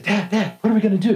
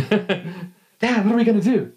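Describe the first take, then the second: First: Put-on a eleven-year-old pestering his dad; excited kid. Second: Put-on excited kid. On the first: Eleven-year-old asking his dad, high and excited. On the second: Eleven-year-old asking his dad again, high and excited. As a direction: bounce with a child's eagerness. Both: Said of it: "I'm all excited".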